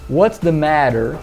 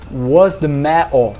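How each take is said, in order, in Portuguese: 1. É falado com sotaque americano. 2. É falado com sotaque de Manchester, com oclusivas glotais. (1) "Que eu falaria em inglês americano" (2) "Em Manchester você escutaria"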